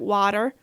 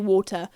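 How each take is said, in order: First: It is said in an American accent. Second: It is said in her usual non-American accent. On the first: Listeners understand it. "I do have to sometimes go water because they, they understand me then" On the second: Listeners do not understand it. "nobody understands what I'm saying"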